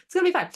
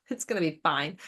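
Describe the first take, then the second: First: Jumps much higher and louder on the repeat; squeaky overconfident it's fine; mock reassurance. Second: Said in the usual way. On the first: Ancestors insisting it's fine, much higher.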